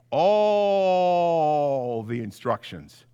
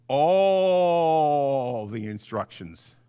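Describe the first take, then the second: No difference in how they are said.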